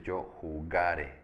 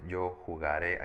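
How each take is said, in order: First: Slow "yo jugare", GA stressed, falling final e. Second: "yo jugaré" with the stress on the last syllable; stress on final É. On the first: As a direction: punch GA in "jugare" and let the last syllable drop. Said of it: "aquí es yo jugare". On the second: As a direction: land on the RÉ at the end of "jugaré". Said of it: "aquí no es yo jugaré". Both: Shown as a demonstration.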